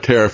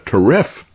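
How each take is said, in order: First: The stress falls on the first syllable. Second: The stress falls on the second syllable.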